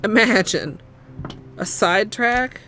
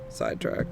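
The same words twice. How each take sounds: First: Loud, playful outburst; loud exclaim. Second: Breathy whispered aside. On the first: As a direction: burst out dramatically. Loud mock-dramatic exclaim. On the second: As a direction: drop to a whisper. Whispered, then exclaimed aloud. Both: Real, not acted.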